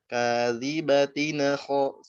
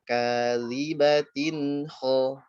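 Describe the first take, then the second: First: An extra vowel bounces off the final n. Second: The n flows straight into the next word. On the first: The speaker calls it wrong. "sengajain mantul coba" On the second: The speaker calls it right. "jadi gimana cara dialirin ya?"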